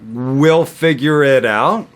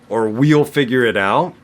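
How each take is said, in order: First: The phrase is said slowly and carefully. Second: The phrase is said quickly and connected.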